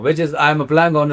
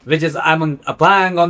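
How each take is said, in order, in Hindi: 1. यह सामान्य, साधारण लहजे में बोला गया है। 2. यह दिखावटी, बनावटी लहजे में बोला गया है। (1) "आपने पहले एक नॉर्मल अंदाज में कहा" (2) "थोड़ा एक्सेंट से बोलता हूँ"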